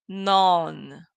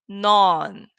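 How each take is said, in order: The two takes are said the same way.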